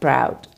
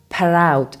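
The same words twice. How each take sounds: First: The opening p and r run straight together. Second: An eh vowel splits the opening p and r. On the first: "instead of" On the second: "there's usually an eh sound added between the two"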